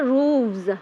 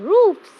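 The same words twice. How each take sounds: First: The word ends with a v sound. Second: The word ends with an f sound. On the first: The speaker calls it wrong. "We don't say roofs" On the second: The speaker calls it right. "roof become roofs"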